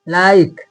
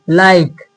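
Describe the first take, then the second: The two takes are said the same way.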